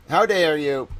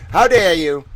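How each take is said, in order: First: Said in the usual way. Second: Loud hammed-up indignation; mock outrage. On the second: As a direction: throw the question in mock fury.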